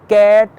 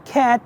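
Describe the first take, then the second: First: The first consonant is soft, not a crisp K. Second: The first consonant is a crisp, clear K. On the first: The speaker calls it wrong. "instead of saying" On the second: The speaker calls it right. "you should say"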